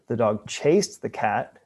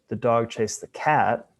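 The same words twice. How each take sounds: First: The word chased carries the main stress. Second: The word cat carries the main stress. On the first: It was this action, not another one. "as opposed to doing some other action" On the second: This animal, not another, was chased. "which means the dog wasn't chasing some other animal"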